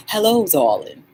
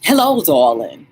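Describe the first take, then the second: First: A second take of her greeting; mild friend impression; imitating Catherine. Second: A light, posh-ish greeting in her voice; mild impression of a friend; imitating Catherine. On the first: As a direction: repeat it like she says it. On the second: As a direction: greet like a gracious hostess. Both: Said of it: "That's how she sounds".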